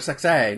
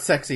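First: The name ends with an 'ay' sound. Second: The name ends with an 'ee' sound. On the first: The speaker calls it right. "you gotta say it right. It's Grandmaster Sexay" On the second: The speaker calls it wrong. "not Sexy"

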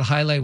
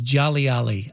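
First: The name begins with a 'high' sound. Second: The name begins with a 'jolly' sound. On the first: The speaker calls it right. "I thought highlight was Jolly Ali" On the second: The speaker calls it wrong. "I didn't know how to pronounce it"

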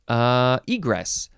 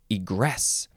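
First: The stress is on the first syllable. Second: The stress is on the second syllable. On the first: It is the noun meaning a way out. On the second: It is the second form of the word.

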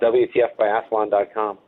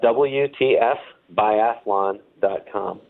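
First: It is said at normal speed. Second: It is said more slowly.

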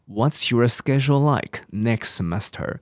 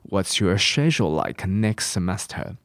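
First: It is said with an American accent. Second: It is said with a British accent.

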